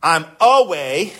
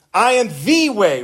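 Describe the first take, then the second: First: Said in the usual way. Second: "the" hit hard and held before "way"; stress on THE. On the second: Shown as a demonstration. Preacher correcting a misquote of Jesus, stressing THE. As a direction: lean on "the" to make it the one way. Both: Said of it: "Jesus didn't say".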